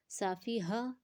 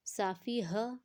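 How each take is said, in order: Both takes have the same delivery.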